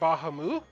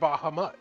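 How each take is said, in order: First: The name ends without a final t sound. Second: The name ends with a final t sound.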